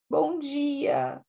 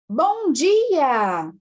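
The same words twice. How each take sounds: First: The greeting sounds sad and downcast. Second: The greeting sounds cheerful and happy. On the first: "um bom dia triste" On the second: "eu falei bom dia alegre"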